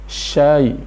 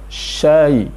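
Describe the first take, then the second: No difference in how they are said.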